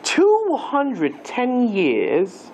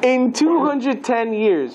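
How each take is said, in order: First: It is said in an English accent. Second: It is said in his normal accent.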